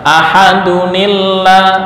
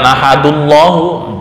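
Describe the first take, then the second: First: A 'ni' syllable links the two words. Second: The words join directly with no 'ni' syllable. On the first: The speaker calls it right. "Akhirnya dibaca ahadunillah" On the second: The speaker calls it wrong. "bukan ahadullahu, kurang pas"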